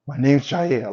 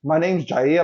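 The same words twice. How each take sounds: First: A touch of smooth bad-boy intro; mild bad-boy swagger; spicy bad boy. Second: Lightly voiced bad-boy intro, ending up; understated bad-boy charm. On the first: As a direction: say "My name's Jair" like a cool bad boy. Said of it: "Jair just sounds spicy". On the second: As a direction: say "My name's Jair" with a knowing lilt. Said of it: "it sounds like a bad boy".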